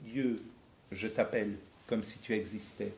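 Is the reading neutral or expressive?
neutral. It is read in a fairly neutral tone.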